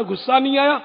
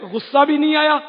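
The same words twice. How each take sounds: First: Said in the usual way. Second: آیا punched louder and higher; emphatic repeat. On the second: Shown as a demonstration. Insisting to listeners he did not get angry, emphatic. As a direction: land hard on آیا in نہیں آیا.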